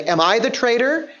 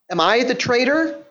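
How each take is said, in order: First: Expecting no. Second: Expecting yes. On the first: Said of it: "expecting a no answer". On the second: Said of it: "expecting a yes answer". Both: Shown as a demonstration.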